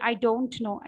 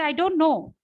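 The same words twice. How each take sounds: First: The T in don't is clearly pronounced. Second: The T in don't is dropped entirely.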